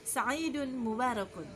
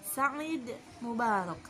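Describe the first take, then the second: First: The final -un endings are fully pronounced. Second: The final -un endings are dropped. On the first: "mau dibaca semua sa'idun mubarakun juga boleh" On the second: "Boleh diwakafkan seperti itu"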